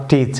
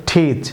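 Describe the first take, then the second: First: টিচ as learners wrongly say it; wrong teach. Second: টিচ with an aspirated English T; টিচ said with a breathy English T; correct teach. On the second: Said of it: "বলুন টিচ". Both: Shown as a demonstration.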